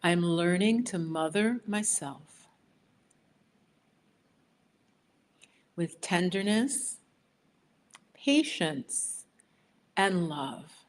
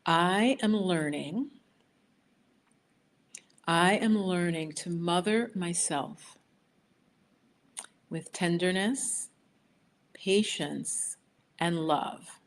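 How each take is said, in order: First: Phrase by phrase, for the group to echo; steady call for them to repeat after you; affirmation to repeat. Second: Slow, drawn-out affirmation with long pauses. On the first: Leading viewers to repeat the affirmation, phrase by phrase. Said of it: "repeat it after me". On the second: To the viewers, reading the affirmation very slowly first. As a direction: lay out each phrase slowly for the group. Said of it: "I'm gonna repeat it very slowly first". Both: Shown as a demonstration.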